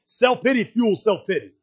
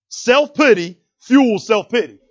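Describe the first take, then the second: First: Said in the usual way. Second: Self-pity fuels self-pity, every word slow and loud; slow emphatic repeat. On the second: Shown as a demonstration. Preacher repeats the point to drive it in, slow and loud. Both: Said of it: "You got that?".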